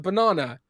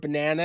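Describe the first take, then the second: First: It is said with a British accent. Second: It is said with an American accent. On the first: The speaker calls it right. "It's a banana" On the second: The speaker calls it wrong. "you're saying banana wrong"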